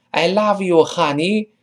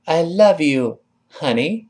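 First: Higher-pitched "I love you, honey" with ah in "love" and "honey"; wrong open vowel. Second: "I love you, honey" with relaxed uh in "love" and "honey"; correct short vowel. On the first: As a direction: mispronounce "love" and "honey" as lahv, hahney. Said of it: "你发啊就难听". (“love”和“honey”错发成“啊”音) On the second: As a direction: keep "love" and "honey" on a small-mouthed uh. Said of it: "你看多好听". (“love”和“honey”都发“呃”音) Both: Shown as a demonstration.

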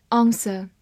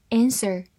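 First: "answer" as AHN-suh, no R; British pronunciation. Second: "answer" as AN-ser, A as in cat; American pronunciation. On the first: Teacher reviews "answer" with learners, British pronunciation. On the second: Teacher reviews "answer" with learners, American pronunciation. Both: Shown as a demonstration. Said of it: "美式发音".

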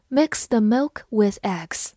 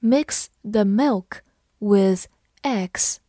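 First: Said in the usual way. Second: Slow, careful word by word; separated words with short pauses; slow read-along. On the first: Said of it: "慢读一遍". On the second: Shown as a demonstration. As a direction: read slowly so learners can follow. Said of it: "跟着我慢读一遍".

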